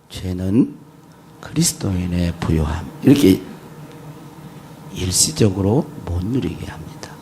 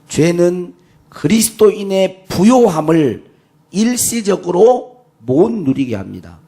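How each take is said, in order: First: It is said in a soft voice. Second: It is said in a loud voice.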